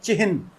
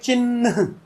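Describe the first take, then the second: First: The h sound comes before the n. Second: The h sound comes after the n. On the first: This is the Sanskrit-derived original form. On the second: This is the later Hindi form. "है बाद में न पहले"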